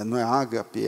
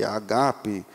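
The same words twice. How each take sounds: First: Ágape stressed on the first syllable, as the wrong way. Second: Agape with stress on the last syllable, the right way; Greek agape. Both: Shown as a demonstration. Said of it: "o grego não suporta a primeira sendo a sílaba tônica".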